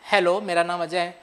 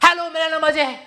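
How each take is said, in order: First: It is said very quietly. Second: It is said very loudly.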